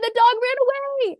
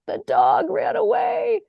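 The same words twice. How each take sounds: First: It is said in an excited tone. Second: It is said in a sad tone.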